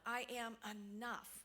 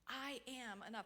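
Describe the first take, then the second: First: The stress is on "enough". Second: The stress is on "I".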